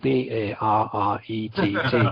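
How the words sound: The letters are spelled out the American way.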